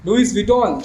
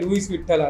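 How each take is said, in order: First: The name is said the standard way, ending 'Vuitton'. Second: The name is said Gujarati-style, ending 'Vithal'. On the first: "લુઈસ વિટોન નું" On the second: "Gujarati લોકો ભાઈ ભાઈ લુઈસ વિઠ્ઠલ"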